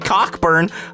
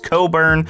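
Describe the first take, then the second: First: The name is said as spelled, 'Cock-burn'. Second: The name is said as 'Co-burn'. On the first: The speaker calls it wrong. "I know that's not how you pronounce Kofi's last name" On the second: The speaker calls it right. "It's Coburn"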